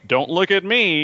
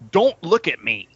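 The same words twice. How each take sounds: First: It sounds casual, like saying I don't know. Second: It sounds rude, telling someone off.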